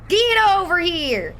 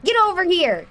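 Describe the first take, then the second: First: 1 slower drawn yell. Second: 1 shouted command. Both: Pretend. Chasing victims, yelling.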